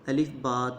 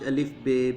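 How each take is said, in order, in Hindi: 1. दूसरे अक्षर को अरबी वाली 'ba' ध्वनि के साथ कहा जाता है। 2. दूसरे अक्षर को उर्दू वाली 'be' ध्वनि के साथ कहा जाता है। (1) "अरबी हरूफ नू पढ़ने का सही तरीका कार यही है" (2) "जिस तरह असी अपनी ज़ुबान विच अलिफ बे पे ते टे से वगैरह पढ़ने हाँ"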